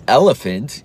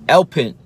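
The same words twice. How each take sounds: First: Said in the usual way. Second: "elpint" said as ELP-int, middle syllable dropped; toddler mispronunciation. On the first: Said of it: "He didn't say". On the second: Retold or imitated. Dad imitating his son saying "elpint" for elephant. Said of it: "And he said".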